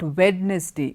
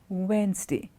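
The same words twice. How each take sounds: First: It is said with three full syllables. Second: It is said with two contracted syllables. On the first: The speaker calls it wrong. "It is not Wednesday, though there is a wed and a ness and a day" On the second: The speaker calls it right. "it's contracted... D is silent"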